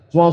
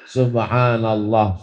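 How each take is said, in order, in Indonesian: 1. Diucapkan sangat cepat dan tidak jelas. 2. Diucapkan dengan kecepatan yang merata dan sedang. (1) "tasbih bunyinya udah nggak jelas" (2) "tidak terlalu cepat, tidak terlalu pelan"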